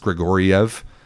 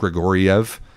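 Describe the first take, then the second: First: The name is said with four syllables. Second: The name is said with four syllables.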